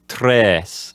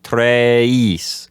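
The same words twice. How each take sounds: First: The vowel stays a single steady eh. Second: The vowel glides from eh toward ee. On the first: The speaker calls it right. "an authentic pronunciation would just have just an eh sound in it" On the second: The speaker calls it wrong. "you start out the E by saying eh, and by the time you're done ... it's more of an E sound"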